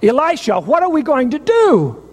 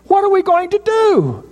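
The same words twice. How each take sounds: First: Frightened plea, pitched up; panicked cry. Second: Much higher, near a shriek of panic; servant's fear boils over, voice cracking high; desperate high-pitched repeat; shrill panicked cry. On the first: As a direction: voice rising in panic, higher. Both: Retold or imitated. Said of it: "he cried out".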